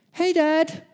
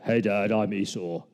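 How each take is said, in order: First: Very high, louder squeaky greeting; high-pitched put-on son's voice; high-voiced greeting. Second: Put-on lower voice of an impostor; corrected, deeper disguise voice; posing as brother. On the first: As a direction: pipe it up in a much higher voice. Jacob's slip posing as Esau. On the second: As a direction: drop it down to pass as the brother. Corrects himself to pose as Esau.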